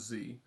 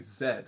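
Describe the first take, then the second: First: The letter is said the American way, zee. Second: The letter is said the British way, zed.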